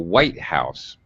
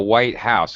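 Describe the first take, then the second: First: The stress falls on the first word. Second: The stress falls on the second word. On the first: It is a compound noun naming one particular building. "in compound noun, it's very abrupt and sharp drop" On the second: "a house that is the color"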